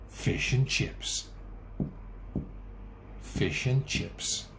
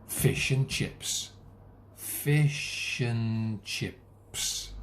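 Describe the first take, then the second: Both takes have the same delivery.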